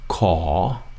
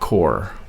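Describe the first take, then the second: First: The word ends in an open vowel. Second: The word ends with an r sound. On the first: The speaker calls it right. "Now that's caw" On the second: The speaker calls it wrong. "not core"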